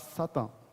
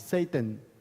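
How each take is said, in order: First: The first vowel sounds like 'ah'. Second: The first vowel sounds like 'ay'. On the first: The speaker calls it wrong. "Et pas" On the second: The speaker calls it right. "en hébreu, on dit Satan. S- S-A-Y-T-A-N"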